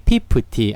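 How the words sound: It starts with a Korean-style p sound. "영어도 한국식으로 읽으면 돼요"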